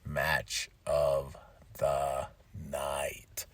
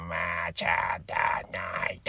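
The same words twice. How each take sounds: First: Hoarse low whisper, trailing off; smoker's rasp. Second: Slow, drawn-out low announcer intro. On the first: Real, not acted. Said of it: "I sound like somebody that's, like, a hardcore smoker". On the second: Shown as a demonstration. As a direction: boom it like a movie trailer. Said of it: "the little thing that goes like".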